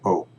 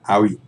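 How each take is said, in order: First: The word is a single plain O sound. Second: The word ends with an extra ee sound. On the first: The speaker calls it right. "it's O" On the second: The speaker calls it wrong. "So it's not owie"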